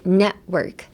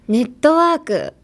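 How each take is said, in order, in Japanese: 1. 英語で、tを破裂させずに言われています。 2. カタカナの日本語の発音で言われています。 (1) "t はそんな発音しない" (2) "日本語のネットワークの発音も一旦ゴミ箱に捨ててください"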